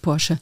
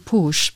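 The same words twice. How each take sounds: First: The name is pronounced the German way. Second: The name is pronounced the English way. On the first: The speaker calls it right. "but no, it's Porsche" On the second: The speaker calls it wrong. "I know the English tend to say Porsche"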